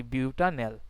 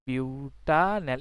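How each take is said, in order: First: Said in the usual way. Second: butanal drawn out slowly, syllable by syllable; slow dictation. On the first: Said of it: "teacher naming the compound". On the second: Shown as a demonstration. Teacher dictating butanal slowly to the class. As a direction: spell out butanal slowly so students can write it. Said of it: "teacher repeats the name slowly".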